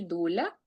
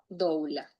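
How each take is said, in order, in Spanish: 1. La primera vocal es un sonido 'u' simple. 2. La primera vocal pasa de 'o' a 'u'. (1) "se puede decir dula" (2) "se escribe doula"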